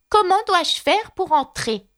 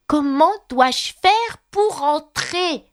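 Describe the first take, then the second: First: Slow, higher voice asking again; Alice insisting at the door; loud repeat. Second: Slower, higher, insistent question; Alice pressing the footman harder; raised voice. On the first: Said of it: "répéta-t-elle à haute voix". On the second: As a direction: raise the voice to be heard. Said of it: "demanda Alice en élevant la voix". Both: A narrator's reading.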